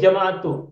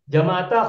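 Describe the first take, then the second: First: The word ends with a 'u' vowel. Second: The word ends with an 'a' vowel. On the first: The speaker calls it right. "As-sahih jama'atu. Doma" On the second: The speaker calls it wrong.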